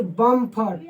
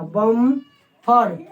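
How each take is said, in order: First: Said in the usual way. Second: बम्फर split in two, with a long held m; बम्फर said very slowly as bamm, far; drawn-out m sound. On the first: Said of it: "यहाँ पे क्या उच्चारण हो रहा है?". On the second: Shown as a demonstration. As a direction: hold the म in बम्फर, then add फर. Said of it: "म का".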